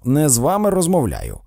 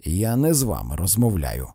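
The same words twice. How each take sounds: First: Louder, insistent snub; irritated reminder, voice raised. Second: Firm, lower-pitched snub; cold rebuff without raising the voice. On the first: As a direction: repeat the rebuff with more force. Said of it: "нагадав Фредді". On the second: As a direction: shut the interrupter out, keeping it low and controlled. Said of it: "він твердо глянув на міс Йорк". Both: A narrator's reading.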